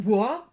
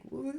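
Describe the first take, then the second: First: Sudden loud whoa. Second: Said in the usual way. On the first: Retold or imitated. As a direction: blurt it out surprised. Mimicking jelly toys slipping.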